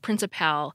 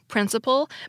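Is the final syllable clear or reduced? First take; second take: clear; reduced. First: The final syllable is clearly pronounced as pal. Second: The final syllable is reduced and unstressed. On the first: "I'm going to pronounce the N that ends with pal" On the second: "these two words are pronounced the same way"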